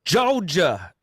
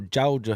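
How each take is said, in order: First: Drawn-out, high put-on Georgia drawl on "Georgia"; Georgia accent. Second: "Georgia" in a lighter mock Georgia accent. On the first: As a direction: stretch "Georgia" loftily in a mock Georgia accent. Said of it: "Your, your Georgia accent". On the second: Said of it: "however you want to say it".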